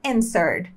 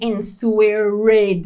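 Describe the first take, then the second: First: No W sound is pronounced after the N. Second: A W sound is pronounced after the N. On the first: The speaker calls it right. "Então a gente fala answered" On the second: The speaker calls it wrong. "a letra W é muda, então a gente não fala answer, nem answered"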